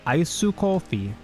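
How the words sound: It is said with Japanese-style pronunciation. Japanese listeners will understand it. The speaker calls it right. "if you speak using Japanese phonetics"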